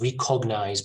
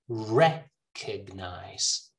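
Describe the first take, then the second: First: The stress is not on the first syllable. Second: The stress is on the first syllable. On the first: The speaker calls it wrong. "This is pronounced recognize by a lot of people" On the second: The speaker calls it right. "the stress in the first syllable"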